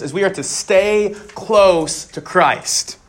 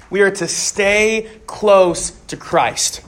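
First: Slow down and lean on close; deliberate slow statement of the main point; slow emphatic point. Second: Are stressed in a slower restatement; drawn-out emphatic repeat. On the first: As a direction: close stressed and drawn out. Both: Shown as a demonstration. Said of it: "the first one is this".

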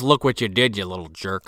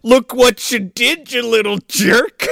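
First: Low-key retold telling-off, trailing down; understated mock scolding. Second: High, slow, drawn-out mock scolding; hammed-up scolding. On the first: Father scolding the kid, understated mock scolding. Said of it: "He just goes". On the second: Father scolding the kid, exaggerated slow scolding. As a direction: stretch each word into a hammy telling-off.

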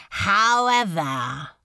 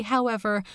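First: Ominous demon lord. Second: Said in the usual way. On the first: Acted. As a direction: stretch the word, let the threat hang. Beelzebub's ominous however.

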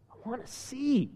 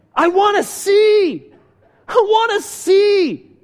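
First: Softly retold plea, under the breath; soft request. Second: Loud, high, drawn-out plea; desperate cry. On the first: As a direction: voice the request softly, without pushing. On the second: Retold or imitated. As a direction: cry out as a blind beggar pleading. Acts blind man's desperate cry.

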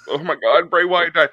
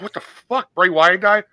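First: Said in the usual way. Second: Shocked disbelief. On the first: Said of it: "I wasn't, like, crying or ups-, like, u-, upset". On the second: Retold or imitated. Podcaster reliving the moment he heard of the death, shocked. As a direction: pitch jumps high on the first words, then a stunned question. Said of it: "you shock it. You're like".

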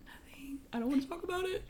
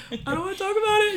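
First: Tiny whispery squeak; mock tearful refusal. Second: High, loud, rushed wail; hammed-up crying outburst; mock wailed refusal. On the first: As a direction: squeeze it out high and voiceless, holding back tears. Tearful refusal retold to sister. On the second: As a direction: blurt it out in a tearful squeal. Repeated tearful refusal, bigger.

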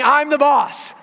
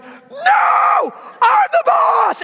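First: Said in the usual way. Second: Put-on high, drawn-out toddler shriek; imitated tantrum scream. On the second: Toddler challenges daddy, screamed high and slow. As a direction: scream defiance like a two-year-old. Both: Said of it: "he starts screaming".

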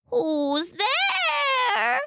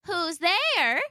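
First: Very high, exaggerated old-lady falsetto; fake grandmother voice. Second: Put-on high-pitched old lady calling out; kindly old woman. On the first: Wolf in bed calling out, best grandmother voice. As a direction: stretch it out in a hammed-up granny pitch. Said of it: "using his best grandmother voice". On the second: Grandmother calling to the door, kindly old voice. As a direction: call sweetly in a high elderly voice. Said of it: "called out a kindly old voice". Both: A narrator's reading.

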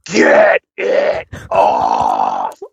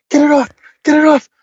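First: Very low, drawn-out demon growl; demonic voice. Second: High, louder mock panic; imitated panic. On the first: Retold or imitated. Retelling a partner's sudden possession, slow demon voice from hell. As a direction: stretch it out in a mock possessed voice, far below your own. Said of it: "voice that came out from the depths of hell". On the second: Man retelling his partner's panic, high mock-panicked voice. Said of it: "goes into a full panic".

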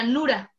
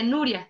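First: "Nura" said without the i; "Nura", two plain syllables ending in -ra; mispronounced name. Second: Said in the usual way. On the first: Retold or imitated. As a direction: say "Nura", dropping the i before the a. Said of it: "él me decía". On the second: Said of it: "no decía".

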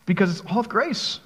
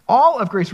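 First: Said in the usual way. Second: "All" hit louder, then falling on "grace"; stress on ALL. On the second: Shown as a demonstration. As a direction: punch "All" and let "grace" fall.

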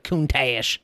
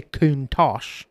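First: Countach stretched out as koon-TAYSH; mock the slip, a long "taysh" ending on Countach; imitated mispronunciation. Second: Countach said slowly as KOON-tosh; correct pronunciation. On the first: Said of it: "You didn't say Countach". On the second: Shown as a demonstration. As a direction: end Countach in a rounded "tosh". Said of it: "You said Countach".

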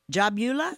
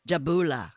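First: Jabula said with a "byoo" middle, rising as a question; "yu" pronunciation. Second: Jabula with a pure "boo", falling; pure-vowel pronunciation. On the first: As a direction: ask Jabula with a YOO glide, pitch climbing. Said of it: "you say Eula?". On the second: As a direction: say Jabula with oo and no y-glide. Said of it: "I like that better". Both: Shown as a demonstration.

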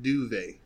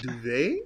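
First: "duvet" with a full first syllable, DOO-vay; alternative pronunciation. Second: "duvet" with a clipped first syllable, duh-VAY; variant pronunciation. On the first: Offering a friend the other pronunciation, DOO-vay for "duvet". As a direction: say "duvet" with a clear "doo" at the start. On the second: Asking a friend how to pronounce it, duh-VAY for "duvet". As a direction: say "duvet" with a short, weak first vowel. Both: Shown as a demonstration. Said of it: "how do you, like, pronounce it?".

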